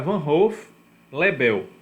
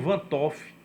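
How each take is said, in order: First: No T sound is heard before Hoff. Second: A T sound is heard before Hoff. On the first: The speaker calls it right. "aquele apóstrofo torna o T mudo. Então é Van Hoff-Lebel" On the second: The speaker calls it wrong. "Alguns chamam Van Toff. Então a pronúncia está completamente errada"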